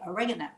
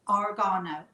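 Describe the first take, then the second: First: It is said in an American pronunciation. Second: It is said in a non-American pronunciation.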